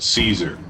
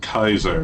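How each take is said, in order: First: The name starts with a soft S sound. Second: The name starts with a hard K sound. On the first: This is the common English pronunciation. "Mister House calls it Caesar" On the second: This is the classical Latin pronunciation. "the Legion pronounces it Kaiser, which is actually appropriate Latin pronunciation"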